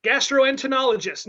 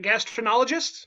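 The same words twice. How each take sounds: First: "Gastroenterologists" with "gastro-entero" sounded out, falling at the end; "Gastroenterologists" repeated as a fuller, settled statement; corrected pronunciation. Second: "gastroenterologists" stumbled over, middle syllables squashed, rising as a question; "gastroenterologists" said like "gastrinologist", questioning; unsure pronunciation. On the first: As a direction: state "Gastroenterologists" firmly, giving the middle syllables. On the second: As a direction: tentatively ask "gastroenterologists", swallowing the "entero" part.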